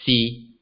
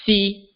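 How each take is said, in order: First: "si" low and level; low flat tone. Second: "si" high and level; high flat tone. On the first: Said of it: "is lower in pitch". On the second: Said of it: "is higher in pitch". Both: Shown as a demonstration.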